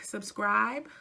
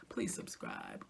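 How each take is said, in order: First: Said in the usual way. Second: Quiet, breath-only aside; hushed plea. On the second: Real, not acted. Asking viewers to subscribe, in a hushed aside. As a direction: drop to a soft near-whisper.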